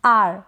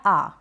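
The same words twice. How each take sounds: First: आर slowly, with only a touch of R; measured आर, R lightly sounded; slight R. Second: आ slowly, with no R at all; measured आ, R dropped; silent R. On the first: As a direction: let आर end in a faint R. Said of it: "बिल्कुल थोड़ा सा करें". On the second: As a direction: hold आ as a pure long vowel. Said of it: "इस तरीके से". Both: Shown as a demonstration.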